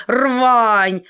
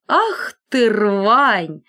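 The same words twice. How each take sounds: First: Рвань! said louder, falling hard; scornful repeat. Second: Indignant scorn. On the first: Iron repeating her insult to the collar, louder. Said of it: "повторила она". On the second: Iron scorning the collar, indignant. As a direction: spit out the insult. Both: A narrator's reading.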